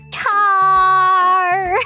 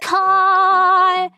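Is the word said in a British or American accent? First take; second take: American; British. First: It is said with an American accent. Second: It is said with a British accent.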